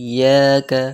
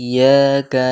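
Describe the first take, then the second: The two takes are said the same way.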